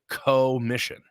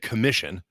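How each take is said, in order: First: The word is split after the first syllable. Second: The word is said as one smooth unit. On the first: The work is shared with God. "It's a co-mission" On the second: We are sent to do the work ourselves. "instead of saying commission"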